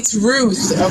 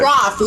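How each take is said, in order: First: The vowel is an 'oo' sound, as in 'truth'. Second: The vowel is an 'o' sound, as in 'cloth'. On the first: The speaker calls it right. "it's Ruth. Okay, learn to pronounce the name correctly" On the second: The speaker calls it wrong. "it's not Roth"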